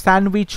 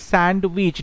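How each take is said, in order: First: স্যান্ডউইচ with the middle D left silent. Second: স্যান্ডউইচ with the middle D pronounced; D sounded. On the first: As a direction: say স্যান্ডউইচ as "san-wich", no D sound. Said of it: "ডির উচ্চারণটা নেই". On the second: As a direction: say স্যান্ডউইচ as "sand-wich", sounding the D. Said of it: "বানানটা মনে রাখার জন্য আমরা স্যান্ডউইচই বলবো". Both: Shown as a demonstration.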